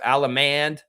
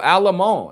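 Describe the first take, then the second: First: The final D sound is pronounced. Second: The final D sound is left silent. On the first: The speaker calls it wrong. "some people may be calling her Alamand" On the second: The speaker calls it right. "The D at the end is silent"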